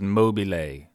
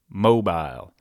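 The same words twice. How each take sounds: First: It is said the way an Italian would. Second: It is said the way a Georgian would. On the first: "If it were in Italy, it would be pronounced Mobile" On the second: "In Georgia, mobile"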